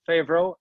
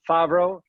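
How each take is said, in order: First: The name is said with an American pronunciation. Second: The name is said with a Swedish pronunciation. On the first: "many of our American customers uh, pronounce it" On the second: "in Sweden we have a tendency to you know we pronounce it very often"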